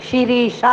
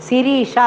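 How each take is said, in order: Both takes have the same delivery.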